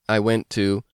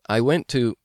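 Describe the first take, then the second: No difference in how they are said.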